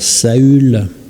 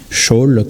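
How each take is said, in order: First: The name is said with a French pronunciation. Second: The name is said with a Hebrew pronunciation. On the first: "en français on va dire Saül" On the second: "C'est probablement la prononciation"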